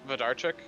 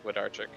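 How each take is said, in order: First: The name is said with Polish pronunciation. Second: The name is said with American pronunciation. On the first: "if it's actual like Polish pronunciation" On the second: "if you're Americanizing"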